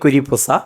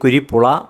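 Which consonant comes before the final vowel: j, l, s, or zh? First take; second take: s; l. First: The last syllable starts with an s sound. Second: The last syllable starts with an l sound. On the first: "പറയാൻ അറിയാൻ വയ്യ" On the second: "പറയാൻ അറിയാൻ വയ്യ"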